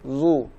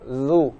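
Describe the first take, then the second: First: The sound is thick, with the lips pushed forward. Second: The sound is thin, with the lips not pushed forward. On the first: The speaker calls it wrong. "bukan zu ... bibir maju ... bunyi zal yang tebal" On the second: The speaker calls it right. "maka dijaga zu"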